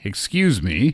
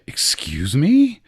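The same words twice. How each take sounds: First: It is said politely, asking someone to move. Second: It is said in an offended tone.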